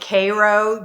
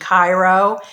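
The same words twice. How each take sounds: First: Cairo is pronounced the local Georgia way. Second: Cairo is pronounced like the Egyptian city. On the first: This is what the town is called. "he's calling it Cairo, Georgia" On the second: This is what the spelling suggests. "it looks like it would be Cairo"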